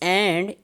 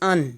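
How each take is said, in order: First: The word is said fully with a clear vowel. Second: The word is reduced to a short weak syllable.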